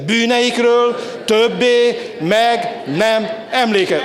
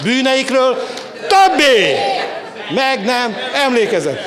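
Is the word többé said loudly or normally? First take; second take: normally; loudly. First: The word többé is said at normal loudness. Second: The word többé is said louder.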